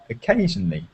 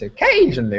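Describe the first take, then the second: First: The word is said at a normal pitch. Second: The word is said at a high pitch. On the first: The speaker calls it right. "It's about occasionally" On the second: The speaker calls it wrong. "it's not about going high pitch"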